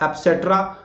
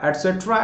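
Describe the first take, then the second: First: A p sound follows the first vowel. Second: A t sound follows the first vowel. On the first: The speaker calls it wrong. "या एप्सेट्रा" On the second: The speaker calls it right. "तो क और प नहीं है, एट सेट्रा"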